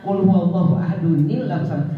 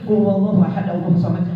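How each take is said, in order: First: Ahad links to Allah with an added n. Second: Ahad runs into Allah without a linking n. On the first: The speaker calls it right. "kalau diterusin harus dibaca nilnya" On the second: The speaker calls it wrong. "Enggak boleh ibu-ibu baca gini"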